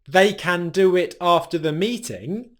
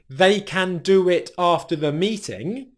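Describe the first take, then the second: First: The word can is said fully and strongly. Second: The word can is said fully and strongly.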